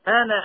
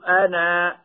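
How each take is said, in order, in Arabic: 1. الحركة الأخيرة قصيرة، إذا وُصلت بالكلمة التي بعدها. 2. الحركة الأخيرة طويلة، عند الوقف. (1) "فتحذف الألف وصلا هكذا" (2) "وعند الوقف يثبت الألف هكذا"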